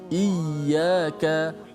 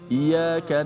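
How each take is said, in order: First: The y sound is doubled and held. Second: The y sound is short and single. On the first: The speaker calls it right. "sabdu atas ya" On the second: The speaker calls it wrong. "tak boleh baca"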